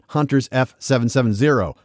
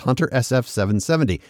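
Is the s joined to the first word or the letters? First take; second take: first word; letters. First: The s is said with the first word. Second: The s is said with the letters. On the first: The speaker calls it wrong. "not Hunters F770" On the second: The speaker calls it right. "It's Hunter SF770"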